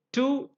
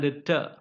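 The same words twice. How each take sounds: First: TO with a full "oo" vowel; strong form. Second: TO reduced to "tuh"; weak form. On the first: Teacher listing preposition forms, strong form. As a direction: say TO as a stressed full word. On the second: Teacher listing preposition forms, weak form. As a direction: say TO with a short neutral vowel. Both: Shown as a demonstration. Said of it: "it has a weaker form".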